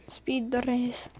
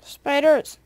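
First: Slow, hushed mock Swedish accent. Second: Said in the usual way. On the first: Shown as a demonstration. Gamer repeating spiders like PewDiePie, slow Swedish accent. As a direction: play with the word in mock Swedish. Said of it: "I can say that in a Swedish accent". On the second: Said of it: "in a Swedish accent".

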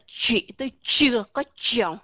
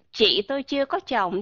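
First: "Chị tôi chưa có chồng" with an English ch and lips rounded; mock wrong English ch in Vietnamese; English ch sound. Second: Said in the usual way. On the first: Shown as a demonstration. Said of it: "Chúng ta không ai nói vậy hết". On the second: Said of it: "Ví dụ như các bạn nói âm C H".

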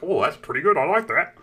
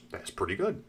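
First: Higher, swooping delighted oddball; eccentric nerd. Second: Soft, lower, understated verdict; quiet approval. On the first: Acted. Scientist approving his own chocolate, eccentric delighted voice. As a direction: redo it hammed-up and enthusiastic. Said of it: "He was a little eccentric". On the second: Retold or imitated. Scientist tasting his chocolate, quiet understated approval. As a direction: murmur it to yourself.

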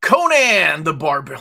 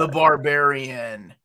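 First: Calls out the title loud, stressing Conan; loud announcement. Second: Drawn-out repeat after a What, slowed down. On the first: Showing off a comic to friends, loud announcement. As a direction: proclaim the title with a big push on Conan. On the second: Friend didn't catch it, slow clear repeat. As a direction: spell it out slowly, stretching The Barbarian. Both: Real, not acted.

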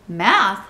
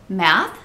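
First: "Math" thrown back with a swooping tune; puzzled echo. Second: "Math" said loud as a simple answer; matter-of-fact answer. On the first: Mister Rogers questioning the housekeeper's answer, "Math" echoed in disbelief. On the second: Amelia Bedelia answering her employer, "Math" stated matter-of-factly. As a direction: give "Math" as the obvious reply. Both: A narrator's reading.

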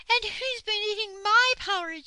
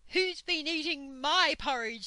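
First: Very high, loud, indignant bear; shrieked outrage as Mother Bear; angry Mother Bear. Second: Raised, louder, indignant bear voice; angry Father Bear. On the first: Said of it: "said Mother Bear angrily". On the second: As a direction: demand it as an outraged papa bear. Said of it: "said Father Bear angrily". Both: A narrator's reading.

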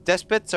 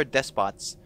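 First: Despots with a weak second vowel, like DESS-puts; DESPOTS with reduced ending. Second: Despots with a clear second vowel, like DESS-pots; DESPOTS with full O. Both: Shown as a demonstration. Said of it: "Despots or despots?".

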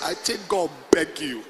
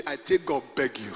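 First: Lower, plain-paced pidgin line; Warri pidgin. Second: Low, chuckling pidgin read; laughing pidgin quote. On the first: Preacher repeats the Warri pidgin verse. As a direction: say it as a Warri local would. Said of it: "Warri English". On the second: Preacher quotes the pidgin Bible while laughing. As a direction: read it out amused, trying not to laugh. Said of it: "Pidgin English". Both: Shown as a demonstration.

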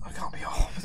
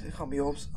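First: Soft whispered insistence; whispered denial. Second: Said in the usual way. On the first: Shown as a demonstration. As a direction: repeat it in a hushed whisper. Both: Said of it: "repeated denial".

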